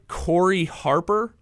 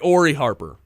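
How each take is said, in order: First: The name begins with a K sound. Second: The name begins with a vowel sound. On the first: The speaker calls it wrong. "am I pronouncing this right?" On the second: The speaker calls it right. "it's a silent C"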